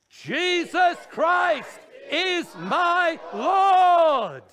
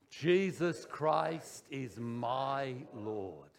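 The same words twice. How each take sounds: First: The sentence is shouted very loudly. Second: The sentence is spoken at normal loudness. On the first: "the third time we're going to shout it" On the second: "Speak it"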